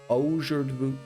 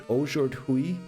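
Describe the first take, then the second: The two takes are said the same way.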